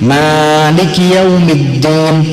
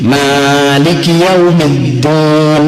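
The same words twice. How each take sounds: The two takes are said the same way.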